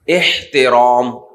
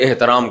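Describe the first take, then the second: First: The 'h' sound is clearly pronounced, Arabic style. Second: The 'h' sound is dropped, plain Urdu style. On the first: It is the way religious scholars say it. "जब उलमा एहतराम का लफ्ज बोलेंगे ना" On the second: It is the way ordinary people say it. "वो हा निकालेगा ही नहीं"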